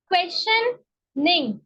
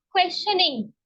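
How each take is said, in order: First: क्वेश्चनिंग said slowly, syllable by syllable; broken into syllables. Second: Said in the usual way. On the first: Shown as a demonstration. Teacher showing students how to break a word, slowly. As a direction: split क्वेश्चनिंग into its parts for the class. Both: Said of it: "word को break कर करके पढ़े".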